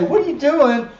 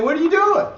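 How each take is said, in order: First: Mock startled what are you doing, louder; a hint of a shocked friend; incredulous challenge. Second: What are you doing, pitched higher and louder, with doing lifted; mock shocked question, higher; higher incredulous challenge. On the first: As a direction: throw the question at them in disbelief. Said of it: "then you have somebody say". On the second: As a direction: imitate the question as if you took offense. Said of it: "you get offended at the person saying".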